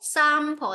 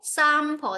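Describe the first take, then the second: First: It is said in a British accent. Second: The same.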